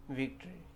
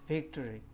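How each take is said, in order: The two takes are said the same way.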